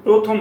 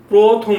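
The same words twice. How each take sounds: First: প্রথম with a short open aw in the first syllable; quick counterexample প্রথম with open vowel; spelling pronunciation. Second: প্রথম as "proo-thom", long rounded o; teacher models প্রথম with a strong long o; correct o pronunciation. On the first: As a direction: say প্রথম as written, "praw-thom", unstressed. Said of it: "তখন প্রথম বলি না". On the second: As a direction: lean firmly on the o in প্রথম. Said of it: "প্রথম বলি". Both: Shown as a demonstration.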